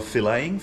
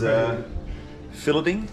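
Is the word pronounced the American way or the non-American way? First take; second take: American; non-American. First: The word has an American pronunciation. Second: The word has a non-American pronunciation.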